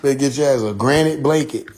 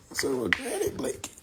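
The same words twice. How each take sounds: First: Said in the usual way. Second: Breathy unvoiced whisper; whispered repeat. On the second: Real, not acted. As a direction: whisper it to yourself.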